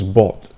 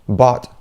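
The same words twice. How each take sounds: First: It is said in a British accent. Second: It is said in an American accent. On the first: "U K" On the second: "U S"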